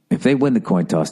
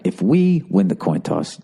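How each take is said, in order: First: "they" set apart as the other team; stress on THEY. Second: "we" stretched and pitched up; stress on WE. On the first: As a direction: lean on "they" to contrast it. Contrasts they and we, coach's instructions. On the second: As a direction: punch "we" against the other team. Contrasts we with they, coach's instructions. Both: Acted.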